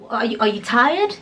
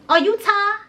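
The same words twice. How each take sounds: First: Said in the usual way. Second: Very high, cutesy mock-concerned question; cutesy teasing. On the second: Storyteller teases sighing friend, cutesy high voice. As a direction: coo it high, swallowing the end of "tired". Cutesy take, later asked normally.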